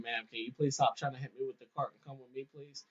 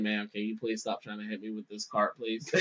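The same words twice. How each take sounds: First: Softer and a bit quick, patient; calm, polite plea. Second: Softer, lower, patient request; calm, polite plea. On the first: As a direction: plead politely, keep it quiet. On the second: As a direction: ask her nicely, keeping it low. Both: Retold or imitated. Guard calmly asking lady to stop.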